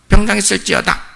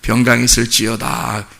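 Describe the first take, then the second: First: It is said in a plain, ordinary manner. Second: It is said in a grand, impressive manner. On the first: "이러면 안 들어오는 거예요?" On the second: "그렇게 멋있게"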